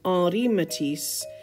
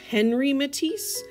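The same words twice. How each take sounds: First: The H at the start is silent. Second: The H at the start is pronounced. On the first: The speaker calls it right. "we need to pronounce his name" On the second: The speaker calls it wrong. "You might want to read this as"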